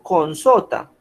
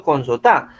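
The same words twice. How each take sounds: First: "con sota" with SO stressed, TA dropping. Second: "con sota" stressed on the final TA; stress on last syllable. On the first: Teacher asking where the accent falls, "con sota" stressed on SO. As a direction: hit the middle syllable SO in "con sota". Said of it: "¿Dónde tiene el acento?". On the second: Teacher showing students an accent, "con sota" stressed on final TA. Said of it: "ahí estoy diciendo". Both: Shown as a demonstration.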